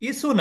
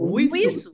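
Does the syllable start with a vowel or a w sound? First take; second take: vowel; w sound. First: The syllable starts with a plain vowel. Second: The syllable starts with a w sound. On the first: The speaker calls it wrong. "ইসু না" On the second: The speaker calls it right. "উই, উইসু"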